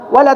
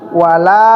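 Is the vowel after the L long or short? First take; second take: short; long. First: The vowel after the L is cut short. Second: The vowel after the L is held long. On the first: The speaker calls it wrong. "jangan wala taqrabu" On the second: The speaker calls it right. "Jadi dibaca wala"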